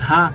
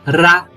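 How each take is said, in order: First: The consonant is the Spanish J sound. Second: The consonant is the southern Brazilian R sound. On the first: The speaker calls it wrong. "O J A faz Rá. O R A não faz Rá" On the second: The speaker calls it right. "ele faz Rá. Viu a diferença?"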